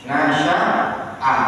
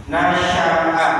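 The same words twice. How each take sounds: The two takes are said the same way.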